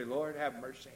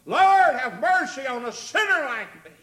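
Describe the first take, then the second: First: Understated plea. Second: Loud, high impassioned plea; crying out for mercy. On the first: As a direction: say the prayer quietly, almost in passing. First, understated take of prayer. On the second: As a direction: sinner calling out to the Lord. Sinner's prayer repeated as a cry. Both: Acted.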